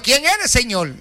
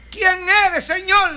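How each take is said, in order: First: Said in the usual way. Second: "¿Quién eres, Señor?" asked much higher, with "Quién" leaping up; Saul's startled question. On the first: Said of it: "Le dijo". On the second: Retold or imitated. Saul asks the voice who it is, raised high. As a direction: lift the whole question high and stressed like a shaken man. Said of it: "le preguntó Saulo".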